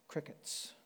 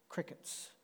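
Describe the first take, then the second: Both takes have the same delivery.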